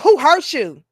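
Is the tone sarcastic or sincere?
sarcastic. It sounds condescending and sarcastic.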